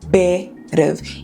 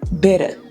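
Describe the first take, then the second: First: It ends with a v sound. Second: It ends on a vowel, no v sound.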